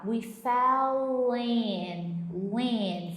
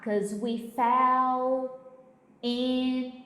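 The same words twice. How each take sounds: First: Fell in slurred together, very slow; linked pronunciation. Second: Fell and in said apart, slow; careful pronunciation. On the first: Teacher showing the linking in fell in, very slow. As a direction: glide fell into in. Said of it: "Por isso que ele fala". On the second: Teacher showing the unlinked version, slow and separate. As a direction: say 'Cause we fell in word by word. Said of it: "Ao invés dele falar". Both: Shown as a demonstration.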